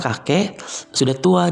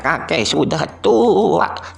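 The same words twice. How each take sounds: First: It is said in the speaker's ordinary voice. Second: It is said in an imitated old man's voice. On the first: The speaker calls it wrong. "Nggak asik kan?" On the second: The speaker calls it right. "yang mbah juga suaranya kita mirip-miripkan dengan suara mbah"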